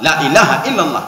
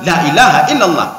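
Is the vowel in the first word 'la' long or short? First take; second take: short; short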